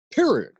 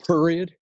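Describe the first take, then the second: First: "Period" very high and loud, falling firmly; emphatic Michigan accent. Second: "period" pitched high, rising like a question; rising tone in Michigan accent. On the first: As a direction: punch "Period" high, drop it, Michigan-style. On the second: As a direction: lift "period" up at the end, Michigan-style. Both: Acted. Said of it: "I'll do the Michigan accent".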